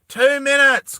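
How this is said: It is said in a non-American accent.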